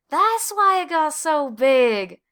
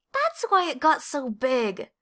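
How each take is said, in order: First: Slow, loud, high exclamation; Desmond exclaiming. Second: Slow, slightly raised realization; Clayton realizing. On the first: Desmond echoing Clayton about the pumpkin, loud and slow. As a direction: burst out with the discovery. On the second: Clayton to Desmond, understanding the giant pumpkin, slow realization. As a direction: let the penny drop slowly. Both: A narrator's reading.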